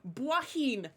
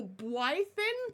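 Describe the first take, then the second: First: "Blythin" as "bwah-heen", no th; corrected pronunciation. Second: "Blythin" slowly as "bwy-thin", with a th in the middle; mistaken pronunciation. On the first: Streamer trying a viewer's corrected name, "Blythin" as "bwah-heen". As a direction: say "Blythin" with an open "ah" and a breathed h in the middle. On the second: Streamer guessing a viewer's name, wrong "bwy-thin" for "Blythin". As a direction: ask "Blythin" with a long "eye" vowel and a th. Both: Shown as a demonstration. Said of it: "It was neither of the things I said".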